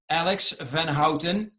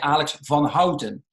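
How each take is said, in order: First: The name is said with an American pronunciation. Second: The name is said with a Dutch pronunciation.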